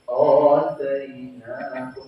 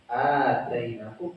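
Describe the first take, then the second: First: The first vowel is thick and heavy. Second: The first vowel is thin and light. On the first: The speaker calls it wrong. "Kalau dibaca tebal gimana? ... Cuma salah" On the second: The speaker calls it right. "A-nya dibaca tipis"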